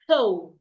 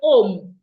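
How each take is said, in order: First: The word starts with a clear H sound. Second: The word starts without any H sound. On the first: The speaker calls it right. "The H must be heard" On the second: The speaker calls it wrong. "without the H"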